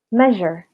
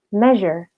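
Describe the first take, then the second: The two takes are said the same way.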